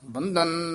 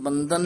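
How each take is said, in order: First: The middle consonant is an aspirated dh. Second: The middle consonant is a plain d. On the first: It means a bond or bondage. The speaker calls it right. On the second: It means bowing in reverence. The speaker calls it wrong.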